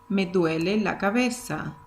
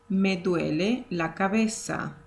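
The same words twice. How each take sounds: The two takes are said the same way.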